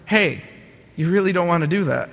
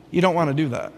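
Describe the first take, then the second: First: Small voice turning mildly firm; a little firmer. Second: Calm little voice. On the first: Little inner voice warns him near the spiral's end, a little firmer. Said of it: "got a little firmer and said". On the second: Little inner voice warns him off the spiral, calmly. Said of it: "this little voice said calmly". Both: Retold or imitated.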